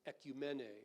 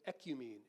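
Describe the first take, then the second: First: It is pronounced the Greek way. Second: It is pronounced the English way.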